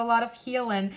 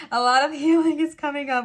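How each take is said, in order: First: Said in the usual way. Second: Sudden higher, louder silly voice; odd playful voice. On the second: Real, not acted. Card reader catching herself in a silly voice, playful. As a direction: slip into a goofy voice, pitched up and loud. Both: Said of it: "Why am I talking like that".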